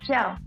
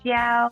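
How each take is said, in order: First: The pitch falls sharply from high to low. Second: The pitch stays high and level. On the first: It means teaching. "using the fourth tone" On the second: It means to teach. "So this is the first tone"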